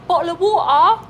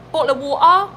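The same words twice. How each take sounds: First: Higher, louder cockney "bottle of water"; cockney accent. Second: Glottal cockney "bottle of water"; cockney accent. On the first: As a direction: push the glottal stops, Londoner. Repeated higher. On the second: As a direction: say it like a Londoner. Mock cockney phrase. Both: Pretend.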